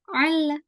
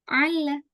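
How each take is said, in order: No difference in how they are said.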